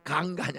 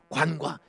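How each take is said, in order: First: The word starts with a plain g sound. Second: The word starts with a gw sound. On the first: The speaker calls it wrong. "강간이 아니고" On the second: The speaker calls it right.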